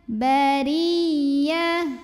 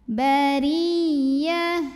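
The two takes are said the same way.

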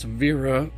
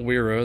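First: The word begins with a V sound. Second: The word begins with a W sound. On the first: The speaker calls it right. "that's wera" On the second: The speaker calls it wrong. "not wera"

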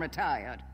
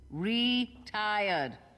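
First: The word is said at normal speed. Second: The word is drawn out slowly.

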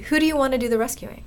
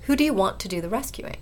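First: The words 'want to' are contracted together. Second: The words 'want to' are said in full. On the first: The speaker calls it wrong. "can you contract there? ... Something doesn't sound right" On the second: The speaker calls it right. "Full form"

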